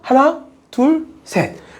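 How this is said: There is a short stop after the first number. The graph pauses briefly before continuing. "얘는 잠깐 멈춰?"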